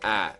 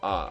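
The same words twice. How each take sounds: First: The vowel is a hard, flatter A sound. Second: The vowel is a soft, open ah sound. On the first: "There's never any ah" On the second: "all of the A's are soft A's, like ah"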